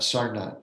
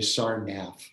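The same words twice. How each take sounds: First: The ending has a plain t sound. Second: The ending has an English th sound. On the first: The speaker calls it right. "Sarnath is the pronunciation" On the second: The speaker calls it wrong. "Americans tend to say Sarnath"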